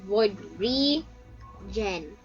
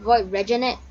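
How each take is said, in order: First: The second name ends without an extra syllable. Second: The second name ends with an extra final syllable. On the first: This is the actual name. The speaker calls it right. "but it's Void Regen" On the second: This is how other people mistakenly say it. The speaker calls it wrong. "They keep saying Void Regenet"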